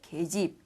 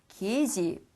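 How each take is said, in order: First: The first syllable has the vowel e. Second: The first syllable has the vowel ye. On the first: "그냥 쉽게 계집 이렇게 발음할 수 있다" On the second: "이렇게도 물론 발음할 수 있지만"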